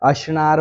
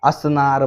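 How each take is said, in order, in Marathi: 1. मधला व्यंजन 'sh' आवाज आहे. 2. मधला व्यंजन साधा 's' आवाज आहे. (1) "हे मराठी शब्दच नाही" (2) "हे खरे मराठी शब्द आहेत"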